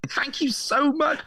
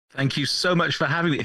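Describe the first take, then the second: First: High, slow comic squeak; silly high voice. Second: Said in the usual way. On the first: Pretend. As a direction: squeak it out much higher, playfully. Guest repeats thanks in silly voice.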